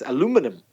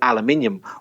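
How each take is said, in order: First: It is said in an American way. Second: It is said in a British way. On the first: "Whereas in America, it's aluminum" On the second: "Most British people say the word aluminium something like aluminium"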